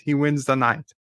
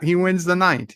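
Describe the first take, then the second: First: Said in the usual way. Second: Higher, delighted declaration; excited call that he won; gleeful verdict. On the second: Real, not acted. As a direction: crown the winner with glee.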